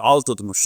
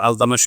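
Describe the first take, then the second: First: The name is said with a t before m. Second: The name is said without a t before m. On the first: This is the correct Turkish form. The speaker calls it right. "इसका सही pronunciation तुर्की है" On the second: This is how people usually say it. The speaker calls it wrong. "हमारे आमतौर पर अल्तमश कहते हैं"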